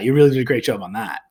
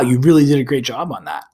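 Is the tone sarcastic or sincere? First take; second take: sarcastic; sincere. First: It is said in a sarcastic, mean tone. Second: It is said in a sincere, positive tone. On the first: The job was actually done badly. "in a very sarcastic, kind of mean way" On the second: The praise is genuine. "my tone of voice would say that's a positive thing"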